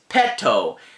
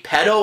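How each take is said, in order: First: The middle consonant is a clear T. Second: The middle consonant sounds like a soft D. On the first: The speaker calls it right. "This is Petto" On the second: The speaker calls it wrong. "it can be quite easy to say Petto, and, and that's completely different"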